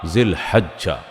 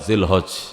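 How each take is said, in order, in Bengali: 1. এটা আরবি ধাঁচে, লম্বা করে বলা হয়েছে। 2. এটা বাংলা ধাঁচে, ছোট করে বলা হয়েছে। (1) "আরবে তুলে" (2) "এমনি বাংলা ... জিলহজ এরকমও বলে"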